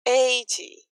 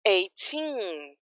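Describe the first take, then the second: First: Eighty with EIGH drawn out, weak TY; "eighty", strong start fading off; stress on EIGH. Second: Put-on eighteen with the final TEEN drawn out; "eighteen", long stressed ending. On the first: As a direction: lean on the first syllable of "eighty". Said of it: "a energia acaba no começo". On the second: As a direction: lean on the second syllable of "eighteen". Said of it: "tem força pra ir até o final". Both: Shown as a demonstration.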